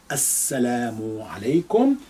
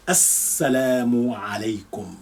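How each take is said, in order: First: Quick, natural السلام عليكم at everyday speed; natural pace. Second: Slow, careful, every syllable clear; slow for pronunciation. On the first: Teacher repeating the greeting for students, now at natural speed. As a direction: say it the way you would greet a friend. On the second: Teacher reading the greeting slowly for the class, careful and slow. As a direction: spell it out slowly so learners catch each sound of السلام عليكم. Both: Shown as a demonstration. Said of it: "I'll read this more slowly than usual for pronunciation".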